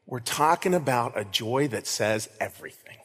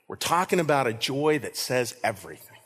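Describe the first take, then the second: No difference in how they are said.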